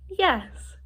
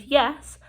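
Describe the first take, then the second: First: Higher-pitched, smiling demonstration; smiling yes. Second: Said in the usual way. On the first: Shown as a demonstration. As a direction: say yes through a smile. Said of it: "I was kind of smiling". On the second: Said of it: "So when I said".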